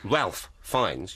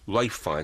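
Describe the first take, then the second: First: The first name is said as Ralph. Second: The first name is said as Rafe.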